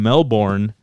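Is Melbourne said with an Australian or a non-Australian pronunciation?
non-Australian. It is said with a non-Australian pronunciation. The speaker calls it wrong. "if you go to an Australian and you tell them Melbourne"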